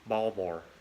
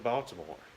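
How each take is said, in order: First: The city name is said in local pronunciation. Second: The city name is said in standard pronunciation.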